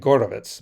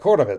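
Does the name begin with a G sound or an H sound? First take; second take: G sound; H sound. First: The name begins with a hard G sound. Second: The name begins with an H sound. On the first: This is the original form of the name. "It's actually Gorovitz" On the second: This is how Americans say the name. "in American accent, it's like Horovitz"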